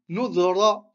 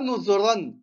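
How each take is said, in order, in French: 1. Le mot se termine sur une voyelle simple. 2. Le mot se termine par un son « n ». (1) "Parce qu'on s'arrête, c'est la fin du verset" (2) "Pas Nouzran"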